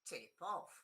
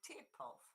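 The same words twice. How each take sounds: First: The stress is on the second word. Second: The stress is on the first word. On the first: It is used as a verb. "the stress goes on the bit which is important... on the preposition" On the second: It is used as a noun. "they become a noun... The stress goes on the first one"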